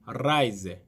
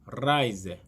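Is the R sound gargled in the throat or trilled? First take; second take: trilled; trilled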